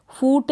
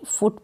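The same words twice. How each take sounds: First: फूट with a long oo; wrong long vowel. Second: फुट with a short, quick u; short vowel. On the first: Teacher showing how not to read it, long oo in फूट. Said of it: "फूट नहीं". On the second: Teacher correcting the reading for learners, short u in फुट. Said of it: "फुट पढ़ेंगे". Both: Shown as a demonstration.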